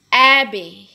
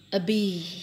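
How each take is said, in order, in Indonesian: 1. Tekanannya ada pada suku kata pertama. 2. Tekanannya ada pada suku kata kedua. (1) "will be stressed in the first syllables" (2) "jangan dibaca Abby"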